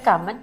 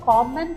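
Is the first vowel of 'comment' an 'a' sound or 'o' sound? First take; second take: a sound; o sound. First: The first vowel sounds like a short 'a'. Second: The first vowel sounds like a long 'o'. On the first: "കോമന്റ് and കമന്റ് both are the same" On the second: "കോമന്റ് and കമന്റ് both are the same"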